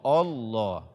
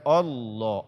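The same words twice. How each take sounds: Both takes have the same delivery.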